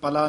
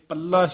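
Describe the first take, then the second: First: The middle consonant is short and light. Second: The middle consonant is held long and tight. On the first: The speaker calls it wrong. "ਪਲਾ ਨਹੀਂ ਕਹਿਣਾ" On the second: The speaker calls it right. "ਪੱਲਾ ਹੀ ਉਚਾਰਨ ਕਰਨਾ"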